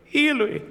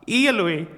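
First: Much higher, desperate second cry; rising anguished cry. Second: Raised, pleading cry from the cross; anguished cry. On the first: Preacher voicing Jesus on the cross, higher desperate cry. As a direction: let the second Eloi break upward in anguish. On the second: Preacher voicing Jesus on the cross, first anguished cry. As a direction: call out the first Eloi in pain. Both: Acted. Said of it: "Då ropar han".

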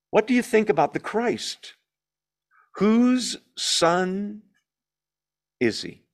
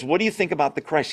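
First: Higher, slow, with long pauses before "is he"; weighty quoted question. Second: "What do you think about the Christ?" rattled off fast; quick quote. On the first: Preacher quoting Jesus to the Pharisees, higher and weighted. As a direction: pose the question as if to the whole room. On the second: Preacher quickly re-quoting Jesus' question before moving on, fast. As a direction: run the question off in passing. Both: Acted.

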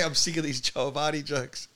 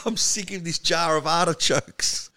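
First: Said in the usual way. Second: "jar of artichokes" said so it sounds like "Joe Avati jokes"; misheard line. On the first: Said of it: "she goes, jar of artichokes". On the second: Shown as a demonstration. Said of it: "she didn't say".

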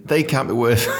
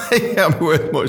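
First: Said in the usual way. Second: Laughing. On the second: Retold or imitated. Restart through laughter.

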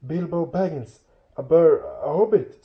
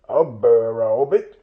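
First: Higher-pitched, nervous little voice; frightened hobbit. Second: Loud, puzzled troll question; a bit startled. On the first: Captured Bilbo naming himself to trolls, frightened and high. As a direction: stammer it timidly, catching yourself. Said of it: "said poor Bilbo, shaking all over". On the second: Trolls repeating Bilbo's odd word, a bit startled. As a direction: echo it in mild troll bafflement. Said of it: "said they, a bit startled". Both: A narrator's reading.

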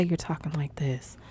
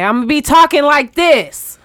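First: Hushed, half-whispered demo; softly lowered speaking voice; talking low. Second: Booming loud demo; demonstrating an overly loud voice; talking too loud. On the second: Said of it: "no way I'm gonna be talking like this". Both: Shown as a demonstration.

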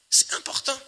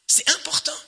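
First: Whispered "C'est important", no voice. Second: High, ringing emphasis on "important"; emphatic. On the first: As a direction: breathe "important" as a hushed secret. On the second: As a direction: proclaim "important" with the pitch lifted high. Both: Shown as a demonstration.

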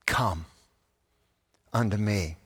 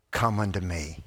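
First: Low, soft "Come", long pause, then "unto me"; pause after COME. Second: Low, soft, in one unbroken phrase; gentle invitation. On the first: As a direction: let "Come" hang alone before finishing gently. Invitation repeated, broken by pause. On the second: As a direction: invite tenderly without pausing. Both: Acted.

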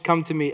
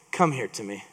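First: Savage. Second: Calm invitation. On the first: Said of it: "the most savage". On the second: Elijah calling the people close. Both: Retold or imitated.

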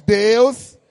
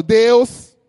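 First: A firm spoken Deus; strong call. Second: Loud call of God. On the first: Pastor asks church to say it strong, firm call. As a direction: say Deus firmly out loud. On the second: Pastor leading the congregation, loud call. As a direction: shout Deus out strong. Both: Shown as a demonstration. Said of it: "fala bem forte".

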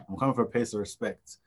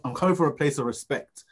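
First: Said in the usual way. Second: Emphatic declaration. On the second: Shown as a demonstration.

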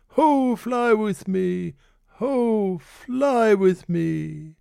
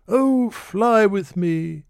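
First: High, very slow, theatrical call; slow, distant-sounding, drawn-out "Ho, fly with me"; hammed-up lord. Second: High, slow drawn-out plea; a slow, high, romantic call; lord imploring. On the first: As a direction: ham it up like a melodrama hero. Refrain grows theatrical. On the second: Acted. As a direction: stretch the "oh" longingly. Lord's refrain.

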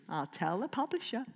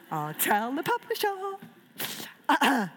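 First: Said in the usual way. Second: Drawn-out, higher playful threat; slow mock-ominous. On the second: Real, not acted. Author jokingly threatening to report back to the publisher. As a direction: stretch it like a teasing warning.

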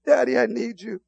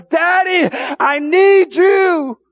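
First: Said in the usual way. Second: High, loud, slow cry to God; shouted prayer. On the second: Real, not acted.

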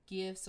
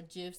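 First: "gifs" with a hard g; hard-g pronunciation. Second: "gifs" with a soft g, like "jifs"; soft-g pronunciation. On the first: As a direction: say "gifs" with g as in "give". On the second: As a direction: start "gifs" with a j sound. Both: Shown as a demonstration. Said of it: "depending on how you pronounce it".

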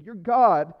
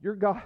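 First: Regaining composure, louder declaration; proclaimed louder. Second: Emotional. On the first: Pastor recovering to proclaim to his congregation, louder. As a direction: push through the emotion and proclaim it. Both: Real, not acted. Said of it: "I'm so emotional this morning".

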